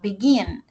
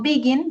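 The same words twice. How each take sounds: First: The stress is on the second syllable. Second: The stress is on the first syllable. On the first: The speaker calls it right. "la acentuación está al final" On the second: The speaker calls it wrong. "yo no digo begin"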